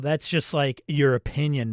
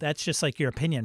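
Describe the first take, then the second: First: It copies the film character's laid-back tone. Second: It is said without the character's tone. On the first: The speaker calls it right. "I got to say it in the right tone" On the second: The speaker calls it wrong. "if I said it like this"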